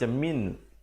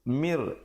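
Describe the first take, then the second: First: The word ends with an n sound. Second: The word ends with an r sound. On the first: The speaker calls it wrong. "jangan baca min" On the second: The speaker calls it right. "Mir gitu ya"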